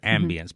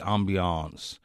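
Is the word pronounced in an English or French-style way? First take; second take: English; French-style. First: It is pronounced the anglicized English way. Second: It is pronounced with a French-style pronunciation. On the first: The speaker calls it right. "It's a good English word" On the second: The speaker calls it wrong. "this faux French pronunciation"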